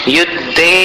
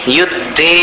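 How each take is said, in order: The two takes are said the same way.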